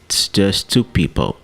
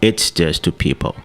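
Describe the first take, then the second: First: The word it's is reduced to a short ts. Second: The word it's keeps its full opening vowel. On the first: The speaker calls it right. "it's vira ts" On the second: The speaker calls it wrong. "E não"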